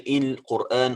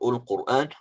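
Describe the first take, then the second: First: The word begins with an i vowel. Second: The word begins with a u vowel. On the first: "We don't say Il-Quran" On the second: "or Ul-Quran"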